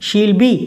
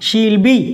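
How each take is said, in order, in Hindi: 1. 'She will' एक ही syllable में छोटा हो जाता है। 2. 'She will' एक ही सिलेबल में छोटा हो जाता है।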